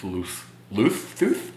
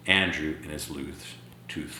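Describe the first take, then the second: First: "Loose, loose tooth?" slow and stumbling, ending with a questioning rise; stumbling over words. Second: Said in the usual way. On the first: Shown as a demonstration. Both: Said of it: "I can't even say it right".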